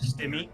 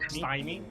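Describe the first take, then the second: First: The first vowel is a short 'ih' sound. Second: The first vowel is a long 'eye' sound. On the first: The speaker calls it wrong. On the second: The speaker calls it right.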